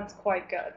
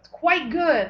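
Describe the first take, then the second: First: The voice sounds lukewarm and unimpressed. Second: The voice sounds excited and enthusiastic. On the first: It is only okay. "like, it's okay" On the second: It is very good. "like you're really excited"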